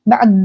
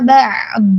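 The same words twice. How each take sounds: First: The ain is rushed straight into the d. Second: The ain is held slowly and clearly before d. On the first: The speaker calls it wrong. "jangan langsung ba'd, jangan cepat-cepat" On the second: The speaker calls it right. "Pelan-pelan dijelaskan sukun huruf ainnya dulu ya"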